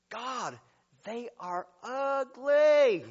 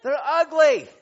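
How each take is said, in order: First: Slow, drawn-out disdainful remark; mock disgust. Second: Loud punchline. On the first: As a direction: drag it out like you're grossed out. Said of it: "and I'm like". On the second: Acted. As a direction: punch ugly much louder and higher. Preacher repeats for laughs.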